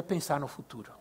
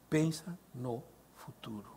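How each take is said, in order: First: Said in the usual way. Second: "Pensa no futuro" said softer, slower, stress on "Pensa"; slow, hushed emphasis. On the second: Shown as a demonstration. Preacher driving home to the congregation: "Pensa no futuro" slow and hushed.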